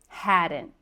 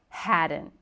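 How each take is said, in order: No difference in how they are said.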